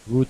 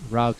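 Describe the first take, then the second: First: It is said with a British pronunciation. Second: It is said with an American pronunciation. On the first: "Route is the British" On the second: "route is the American pronunciation"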